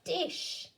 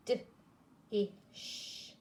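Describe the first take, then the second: First: "Dish" lifted high; cheerful reveal to the child; bright blended word. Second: "D-ish" hushed and split; segmented whispered sounding out. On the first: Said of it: "Blend them together". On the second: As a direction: breathe each sound apart. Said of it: "You make the sounds". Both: Shown as a demonstration.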